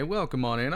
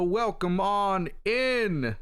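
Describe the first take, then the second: First: Said in the usual way. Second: Slow hammed-up Texan welcome; mock cowboy drawl. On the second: Streamer welcoming chat in as a playful country cowboy, slow drawl. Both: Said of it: "don't know why I said it like that".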